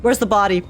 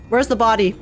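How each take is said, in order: Both takes have the same delivery.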